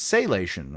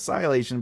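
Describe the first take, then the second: First: The first syllable does not sound like 'sigh'. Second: The first syllable sounds like 'sigh'. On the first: This is how readers say the name. The speaker calls it wrong. "everyone that's been reading has been saying it's Salation" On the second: This is how the author says the name. The speaker calls it right. "no, it's Silation"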